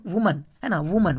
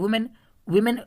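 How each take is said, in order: First: वुमन with a short, weak "mən" ending; वुमन said the right way, ending in "mən"; correct pronunciation demo. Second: वुमेन said with a full "men" ending, the common mistake; वुमेन as many students wrongly read it, ending in "men"; wrong pronunciation demo. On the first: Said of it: "जो pronunciation है वुमन है". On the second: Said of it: "विमेन नहीं पढ़ते हैं". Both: Shown as a demonstration.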